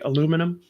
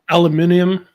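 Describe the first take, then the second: First: It is said with four syllables, American style. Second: It is said with five syllables, British style. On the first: This is how the speaker's own country says it. "we say aluminum" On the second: This is how people in Britain say it. "that's how they say it in Britain"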